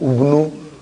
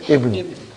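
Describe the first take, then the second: First: The word begins with a u vowel. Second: The word begins with an i vowel. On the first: The speaker calls it wrong. "I will never say" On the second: The speaker calls it right. "It is always Ibnu"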